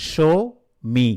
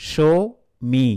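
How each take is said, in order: The two takes are said the same way.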